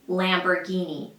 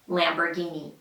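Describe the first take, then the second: No difference in how they are said.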